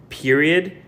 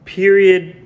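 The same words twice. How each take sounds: First: Said in the usual way. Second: Period said louder and higher, hammered home; emphatic period. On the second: Shown as a demonstration. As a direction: slam down the word period. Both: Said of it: "Like, period".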